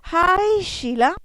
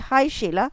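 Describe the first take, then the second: First: The vowel in hi is drawn out, excited. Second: The vowel in hi is short and plain. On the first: "I said hi Sheila. That means she's very excited" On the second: "I did not say hi Sheila"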